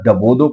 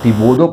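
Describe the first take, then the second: First: The first vowel is an a sound. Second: The first vowel is an i sound. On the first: "बाद डबोदो पढ़ते हैं" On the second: "बाद लोग इसको डिबोदो पढ़ते हैं"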